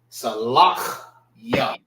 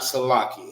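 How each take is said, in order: First: The word ends with a separate 'ya' syllable. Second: The word ends without a final 'ya' syllable. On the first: The speaker calls it right. "That's the proper way of pronouncing it" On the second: The speaker calls it wrong. "This is not Salaki"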